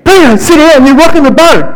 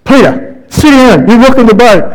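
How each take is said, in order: First: The crew losing patience, pitch climbing; exasperated scold. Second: Raised, higher-pitched scold, a hint of a fed-up crewmate; scolding disciple. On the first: Retold or imitated. Disciples scolding Peter a second time, higher and exasperated. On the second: Disciples telling Peter to sit down, lightly voiced scolding. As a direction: tell Peter off for rocking the boat.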